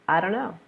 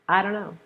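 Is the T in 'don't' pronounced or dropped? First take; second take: dropped; dropped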